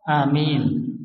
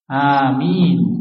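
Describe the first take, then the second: First: The first vowel is kept short. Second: The first vowel is held long. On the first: "yang kedua qasr pendek" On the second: "amin bil mat, dengan mat"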